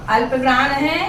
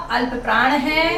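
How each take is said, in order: Both takes have the same delivery.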